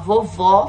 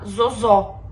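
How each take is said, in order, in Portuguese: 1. Ambas as sílabas começam com som de v. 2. Ambas as sílabas começam com som de z. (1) "em vez de falar vovó" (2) "falar zozó"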